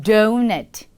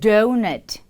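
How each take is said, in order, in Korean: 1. 영어 억양으로 발음됩니다. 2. 영어 억양으로 발음됩니다.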